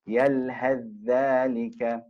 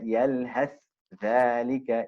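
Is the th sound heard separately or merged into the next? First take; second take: merged; separate. First: The th is merged completely into the next sound. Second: The th is pronounced separately before the next word. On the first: The speaker calls it right. "it merges" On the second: The speaker calls it wrong. "So you wouldn't recite"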